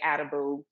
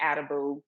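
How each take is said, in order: First: The surname has an Americanized pronunciation. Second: The surname has an Americanized pronunciation.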